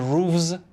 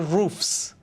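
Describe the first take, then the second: First: The word ends with a v sound. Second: The word ends with an f sound. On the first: The speaker calls it wrong. "We don't say" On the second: The speaker calls it right. "we say"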